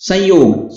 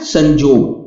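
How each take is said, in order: First: The middle consonant is a y sound. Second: The middle consonant is a j sound. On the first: This is the Hindi form. "संयोग क्या बन जाता है?" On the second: This is the Nagpuri form. "Nagpuri में संयोग को संजोग लिखेंगे और पढ़ेंगे भी"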